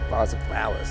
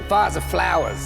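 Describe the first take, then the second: First: It is said at a quieter volume. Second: It is said louder.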